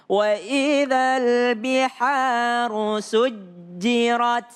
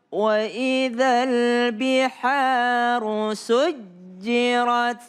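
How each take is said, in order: Both takes have the same delivery.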